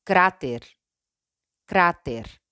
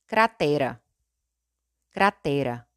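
First: "cráter" in Spanish, stressed on CRÁ. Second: "cratera" in Portuguese, stressed on TE. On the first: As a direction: say "cráter" as KRA-ter. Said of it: "En español". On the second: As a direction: say "cratera" as kra-TEH-ra. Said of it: "En portugués". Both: Shown as a demonstration.

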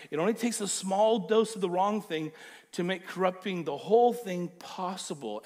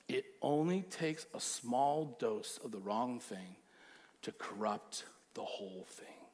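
First: Louder, pressing each word home; emphatic repeat. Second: Low, soft and slow, almost hushed; quiet, slow warning. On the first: Pastor repeats Paul's warning to the church, louder. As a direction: drive the warning hard. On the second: Pastor hushes the congregation to warn them, slow and soft. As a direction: let the warning sink in quietly. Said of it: "repeated louder". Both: Shown as a demonstration.

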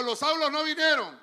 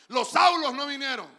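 First: Loud line for the church to repeat; call and response. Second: Shouted response, louder and higher. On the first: Preacher leading the congregation to repeat, loud. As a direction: say it out for them to echo. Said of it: "Diga conmigo". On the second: Preacher demanding the church say it louder, shouting. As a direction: belt it out so the church joins. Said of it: "No, dígalo fuerte". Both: Shown as a demonstration.

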